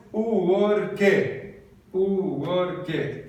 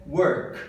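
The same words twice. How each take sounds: First: Thick Brazilian accent, three syllables in "Work"; Brazilian-accented English. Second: "work" in English, no vowel after the k; crisp single-syllable "work"; correct English pronunciation. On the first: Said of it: "um bom brasileiro diria". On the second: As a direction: WORK as one syllable, ending on the k. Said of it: "Uma sílaba só". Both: Shown as a demonstration.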